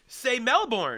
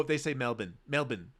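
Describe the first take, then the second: First: Melbourne as MEL-born, r fully sounded; loud, high, emphatic MEL-BORN; American pronunciation. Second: Melbourne as MEL-bun, no r; mock local pronunciation. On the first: Shown as a demonstration. Scolding people who copy the locals, emphatic American pronunciation. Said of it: "You don't. That's how they say it". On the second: Mimicking students back from abroad, affected local pronunciation. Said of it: "one of my biggest pet peeves".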